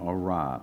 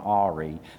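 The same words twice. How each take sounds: First: The word ends like 'rye', stressed at the end. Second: The word sounds like 'AW-ree', stressed at the start. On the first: The speaker calls it right. "just to show off that I have improved on my pronunciation" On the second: The speaker calls it wrong. "I mispronounced it. That's how I pronounced it"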